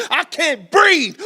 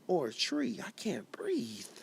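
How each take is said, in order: First: Slow, high, full-throated shout; anguished rallying shout. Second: Slow, breathy whisper, nearly gone; a choked, fading whisper. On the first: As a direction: cry it out with everything you have. Poem climax, refrain shouted. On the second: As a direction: let the words barely escape, slowly. Spoken word poem, hushed refrain. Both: Acted.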